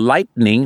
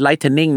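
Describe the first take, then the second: First: Said in the usual way. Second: Lightning in three syllables, "light-en-ing"; lightning as "lai-ten-ning", the mistaken way; mispronounced lightning. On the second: Shown as a demonstration. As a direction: slip an extra vowel into lightning after the t. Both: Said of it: "แล้วไม่ใช่ lightning นะฮะ".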